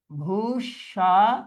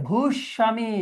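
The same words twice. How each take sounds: First: ভূস্বামী slowly as bhush, sha, mi; syllable by syllable. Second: Said in the usual way. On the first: Shown as a demonstration. Teacher dictating for students, syllable by syllable. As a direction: stretch ভূস্বামী into separate beats.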